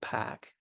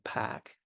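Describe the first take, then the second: First: The R is dropped with a fronted vowel. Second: The R is dropped with a fronted vowel.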